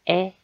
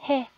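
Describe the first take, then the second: First: The particle is said as a bare vowel. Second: The particle is said with an initial h sound. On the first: It marks a direction. "방향을 나타내는 경우에 어, 이때는 에 라고 발음을 해줘야" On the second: This is the usual reading of the character. "원래 해로 읽죠"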